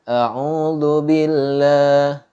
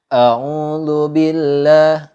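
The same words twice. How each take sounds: No difference in how they are said.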